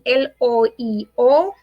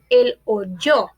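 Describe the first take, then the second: First: The two vowels meet with no y sound. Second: A y sound joins the two vowels. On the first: The speaker calls it wrong. "No decimos él oíó" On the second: The speaker calls it right. "cambiamos la i por la i y"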